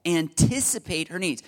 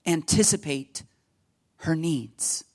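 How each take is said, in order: First: Said in the usual way. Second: Put-on amateurish British accent on each word; bad British accent. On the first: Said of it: "I'll stop my really bad British accent". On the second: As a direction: put on a poor English accent. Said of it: "my really bad British accent".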